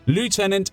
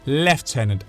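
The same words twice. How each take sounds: First: The word is said the widely used way. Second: The word is said the British way. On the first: "the French way of saying the rank that everyone uses" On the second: "the U K says Lieutenant"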